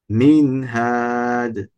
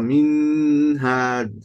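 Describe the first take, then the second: First: The n is plain, with no nasal hum. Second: The n is held with a long nasal hum. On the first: The speaker calls it right. "On va prononcer nun comme il est" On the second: The speaker calls it wrong. "ils mettent la runna partout"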